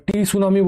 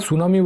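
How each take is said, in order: First: টি সুনামি said with the t sounded before the s; wrong spoken t. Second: সুনামি said starting on a plain s with no t; correct silent t. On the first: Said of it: "টি সুনামি বলি না আমরা". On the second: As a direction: drop the t and say সুনামি. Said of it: "সুনামি বলি". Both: Shown as a demonstration.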